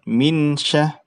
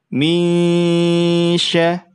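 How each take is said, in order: First: The n sound is pronounced clearly. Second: The n sound is concealed and nasalized. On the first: The speaker calls it wrong. "bukan minsya" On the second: The speaker calls it right. "nunnya disamarkan"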